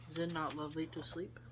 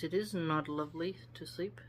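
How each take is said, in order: First: Softer "Is it not lovely to sleep?" rising at the end; quietly fix it into a question lifting on "sleep"; gentle rising reread; corrected as a question. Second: Said in the usual way. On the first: Shown as a demonstration.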